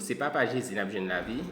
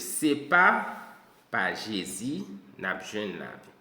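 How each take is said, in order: First: There is no pause after the first 'pa'. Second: There is a pause after the first 'pa'. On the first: It is the Father of Jesus who gives us life. The speaker calls it wrong. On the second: It is not through Jesus that we have life. The speaker calls it right.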